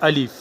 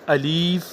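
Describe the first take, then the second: First: The vowel is kept short. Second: The vowel is drawn out long. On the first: The speaker calls it right. "उसमें कोई मद नहीं है" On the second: The speaker calls it wrong. "अगर कोई इस तरह पढ़े अलीफ तो ये गलत होगा"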